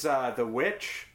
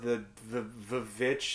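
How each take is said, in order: First: The title is pronounced in a plain way. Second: The title is pronounced in a pretentious way.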